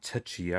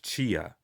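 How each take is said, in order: First: The word begins with a sounded T. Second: The word begins with no T sound. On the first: The speaker calls it wrong. "It's not Tachia" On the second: The speaker calls it right. "I think the T is silent"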